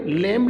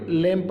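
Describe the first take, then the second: First: "लैम्ब" with the b sounded; wrong reading. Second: "लैम्प" said as lem, B silent; correct reading. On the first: Teacher showing the wrong "लैम्ब", B pronounced. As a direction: say "लैम्ब" with an audible b after m. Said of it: "लैम्ब नहीं पढ़ेंगे". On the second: Teacher correcting students, "लैम्प" with silent B. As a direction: close "लैम्प" on the m, dropping b. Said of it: "लैम्प पढ़ेंगे". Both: Shown as a demonstration.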